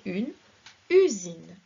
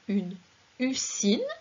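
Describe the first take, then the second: First: The s in usine is a buzzing z. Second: The s in usine is a hissing s. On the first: The speaker calls it right. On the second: The speaker calls it wrong. "On ne va donc pas dire"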